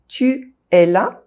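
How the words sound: There is a pause between the two vowels. "if I don't link them, if I pause between them"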